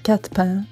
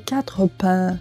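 First: The consonant and mute e are dropped. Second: The consonant and mute e are fully pronounced. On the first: The speaker calls it right. "В разговорной беглой речи часто «э» немой выпадает не один, а с соседним согласным" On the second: The speaker calls it wrong. "не"

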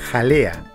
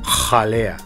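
First: The j sound is soft and light. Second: The j sound is harsh and intense. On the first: This is the Spanish pronunciation. "en el español decimos jalea" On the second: This is the Quechua pronunciation. "en el quechua esa J sonaría como jalea"

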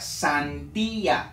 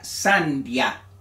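First: The i and a fall in separate syllables. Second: The i and a merge into one syllable. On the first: The speaker calls it right. "se pronuncia sandía" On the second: The speaker calls it wrong. "no se pronuncia sandia... estuviera pronunciando como diptongo"

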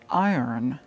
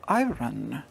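First: The word is said the usual way. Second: The word is said the Scottish-style way. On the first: This is how most people say it. "and not iron" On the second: This is how a Scottish tutor said it. "she said iron"

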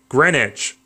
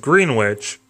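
First: The word is pronounced unlike its spelling. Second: The word is pronounced the way it is spelled. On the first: The speaker calls it right. "it's actually Greenwich, but it's spelled Greenwich" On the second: The speaker calls it wrong. "you pronounce it Greenwich, even though it's spelled that way"

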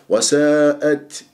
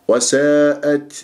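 Both takes have the same delivery.

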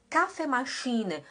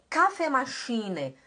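The two takes are said the same way.

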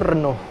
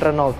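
First: The name is pronounced the French way. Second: The name is pronounced the local Indonesian way. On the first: The speaker calls it right. "cara baca itu Renault" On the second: The speaker calls it wrong. "bukan Renault"

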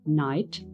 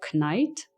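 First: The word begins with an n sound. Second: The word begins with a k sound. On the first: The speaker calls it right. "opuszczając K" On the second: The speaker calls it wrong. "jak czytalibyśmy je z K"

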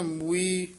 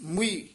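First: The first vowel is long and drawn out. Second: The first vowel is short and said quickly. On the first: The speaker calls it wrong. "ਦਲੈਂਕੜ ਨਾਲ ਨਹੀਂ ਬੋਲਨੇ" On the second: The speaker calls it right. "ਔਂਕੜ ਹੈ ... ਇਸ ਤਰ੍ਹਾਂ ਛੇਤੀ ਬੋਲਨੇ ਆ"

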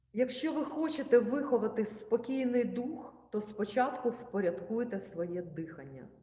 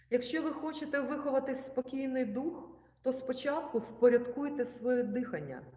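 The two takes are said the same way.

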